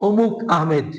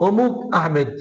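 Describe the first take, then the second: The two takes are said the same way.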